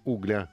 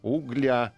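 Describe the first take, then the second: First: The stress is on the first syllable. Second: The stress is on the last syllable. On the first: The speaker calls it wrong. "а не" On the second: The speaker calls it right. "ударение сюда надо, в конец"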